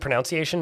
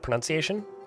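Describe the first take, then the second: First: The second syllable sounds like 'noun'. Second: The second syllable sounds like 'nun'. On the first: The speaker calls it wrong. "I always thought it was a pronunciation" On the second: The speaker calls it right. "not pronunciation"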